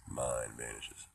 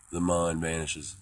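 First: Said in the usual way. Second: Slow, ringing, raised voice; louder, stretched-out declaration; loud proclamation. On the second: Pretend. Repeats phrase as loud proclamation.

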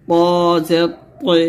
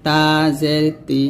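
First: প and পে said with a heavy Arabic t; heavy emphatic t on পে; thick To. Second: Light t in তি; light Arabic t on তি; thin ta. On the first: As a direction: thicken and round the t for পে. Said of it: "বলতে হবে মোটা করে". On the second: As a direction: keep তা and তি thin. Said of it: "তখন পাতলা করে বলবেন". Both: Shown as a demonstration.

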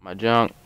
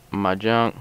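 Both takes have the same delivery.

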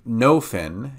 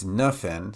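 First: "nofen" said with a full O like "no"; the mispronounced "nofen", with the O of "no"; wrong nofen. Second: "nufen" with a weak schwa, "nuh-fen"; the right "nufen", with a reduced vowel; correct nufen. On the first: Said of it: "it's not n". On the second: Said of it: "it's nufen". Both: Shown as a demonstration.

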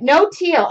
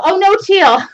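First: Said in the usual way. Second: "Oh, no teal" jumps higher and louder in surprise; surprised. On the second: Real, not acted. Host reads a viewer saying no teal and reacts surprised, higher and louder. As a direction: react to the chat's "no teal" with a startled laugh.

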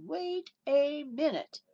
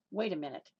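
First: Commanding wait. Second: Said in the usual way. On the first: Retold or imitated. Paul stops the whipper mid-swing, slow and commanding. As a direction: halt the whipper with authority. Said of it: "Opened up his mouth and said".

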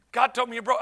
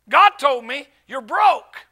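First: Said in the usual way. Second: Slow, emphatic delivery of a revelation; retold bombshell, punched out; imitated pronouncement. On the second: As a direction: announce it slowly, leaning on GOD and BROKE. Voices the man's revelation.

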